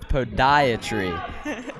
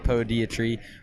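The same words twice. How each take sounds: First: The first syllable sounds like 'poh'. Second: The first syllable sounds like 'pee'. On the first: The speaker calls it right. "So that's how you pronounce it" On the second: The speaker calls it wrong. "not brought to you by Saint Elizabeth"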